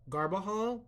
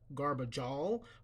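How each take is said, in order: First: The middle consonant is a breathy H sound. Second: The middle consonant is an English J sound. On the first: The speaker calls it right. "the J becomes an H sound" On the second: The speaker calls it wrong. "I don't think that's how it's pronounced"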